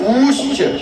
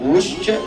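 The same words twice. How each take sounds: First: The vowel is held for a long time. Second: The vowel is held very briefly. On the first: "ये दीर्घ है" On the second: "ये ह्रस्व है"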